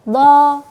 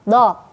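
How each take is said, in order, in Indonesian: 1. Setiap suku kata dipanjangkan. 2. Setiap suku kata pendek, satu ketukan. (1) "Jangan dipanjangkan" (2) "bacanya pendek, satu ketukan saja"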